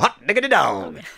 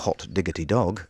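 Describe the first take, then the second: First: It is said brightly, with lively enthusiasm. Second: It is said flatly, without any enthusiasm. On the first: "impossible to say without sounding enthusiastic" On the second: "a very good impression of someone saying it in a sort of dour way"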